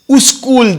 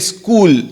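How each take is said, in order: First: An extra u vowel comes before the s. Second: The word starts directly with the s sound. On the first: "people who are the Urdu background, you'll say uskul" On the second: "Like we don't say school"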